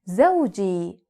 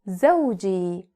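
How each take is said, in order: Both takes have the same delivery.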